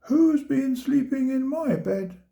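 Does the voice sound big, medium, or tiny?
medium. It is said in a medium-sized voice.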